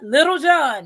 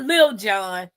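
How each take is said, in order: First: The first word has two full syllables. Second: The first word is cut to one syllable. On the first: The speaker calls it right. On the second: The speaker calls it wrong. "not Lil John"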